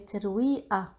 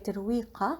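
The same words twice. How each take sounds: First: The middle consonant is a glottal stop. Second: The middle consonant is a q sound. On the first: The speaker calls it right. "we swap the qa for a in Lebanese" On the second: The speaker calls it wrong. "we don't say ترويقة"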